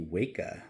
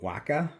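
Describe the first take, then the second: First: The first syllable sounds like 'wake'. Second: The first syllable does not sound like 'wake'. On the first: The name refers to waking up. "intended to be Waka, like you makes you wake up" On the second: This is how the speaker would naturally read the name. "I'm assuming I would call it Waka. That's how I would pronounce it"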